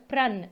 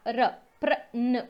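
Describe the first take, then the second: First: Said in the usual way. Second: र drawn out, then prawn said slowly and clearly; teacher breaking prawn into र and prawn; syllable by syllable, slowed. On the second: Shown as a demonstration. Teacher spelling out the sound for students, slowly. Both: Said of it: "प आधा पा".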